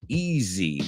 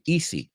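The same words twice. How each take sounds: First: The middle consonant is a buzzing Z sound. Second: The middle consonant is a hissing S sound. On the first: The speaker calls it right. "ese zzz" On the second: The speaker calls it wrong. "They say easy. I'm like, it's not, e- no es una S"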